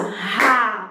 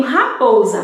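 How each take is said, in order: First: "Raposa" in three separate beats, ra, po, sa; clapped syllables. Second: Said in the usual way. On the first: Shown as a demonstration. Teacher clapping out raposa for pupils, syllable by syllable. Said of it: "Eu bati palmas quantas vezes?". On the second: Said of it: "Aí, eu tenho raposa".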